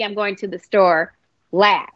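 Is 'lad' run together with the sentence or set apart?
set apart. Lad is set apart from the sentence.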